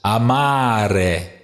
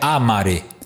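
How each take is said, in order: First: The stress falls on the middle syllable. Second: The stress falls off the middle syllable. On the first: The speaker calls it right. "amare é uma paroxítona, porque aqui está a sílaba longa no meio" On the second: The speaker calls it wrong. "Não é amare"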